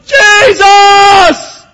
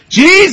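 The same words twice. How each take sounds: First: It is shouted as loudly as possible. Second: It is called out at moderate loudness.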